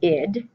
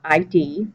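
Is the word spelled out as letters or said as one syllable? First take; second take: one syllable; letters. First: It is said as one short syllable. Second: It is spelled out as two letters. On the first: It names a part of the personality. The speaker calls it right. "We pronounce it the id" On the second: It names an identity card. The speaker calls it wrong. "It's not I D, ... like your state I D"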